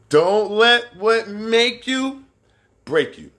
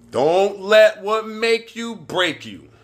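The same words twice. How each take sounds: First: Slow phrase with a held gap before break you; dramatic pause before break you. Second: Drawn out and emphatic, every word spaced; slow motto with room between words; slow, weighty saying. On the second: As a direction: deliver it like a motto, slowly. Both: Shown as a demonstration.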